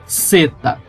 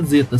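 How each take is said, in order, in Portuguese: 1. A palavra começa com um s sibilante, como chiado. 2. A palavra começa com um z vibrado, como zumbido. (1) "É como se fosse dois S ou como se fosse o som da letra C" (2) "não se fala zeta"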